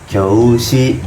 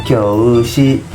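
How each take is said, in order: No difference in how they are said.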